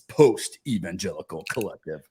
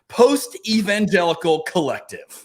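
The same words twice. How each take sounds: First: It is said in a cool, put-on voice. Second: It is said in an ordinary speaking voice.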